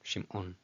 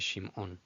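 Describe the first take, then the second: No difference in how they are said.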